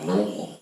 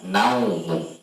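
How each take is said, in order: First: The first syllable has a plain 'u' vowel. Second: The first syllable has an 'au' diphthong. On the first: The speaker calls it wrong. "bukan numu" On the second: The speaker calls it right. "Seharusnya dibaca naumu"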